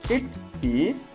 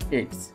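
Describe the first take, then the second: First: Both words are said fully and separately. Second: The words are joined into one short syllable.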